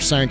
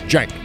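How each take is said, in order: First: The name begins with an S sound. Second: The name begins with a J sound. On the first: The speaker calls it wrong. "or Sank" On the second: The speaker calls it right. "I've always said Cenk, like with a J"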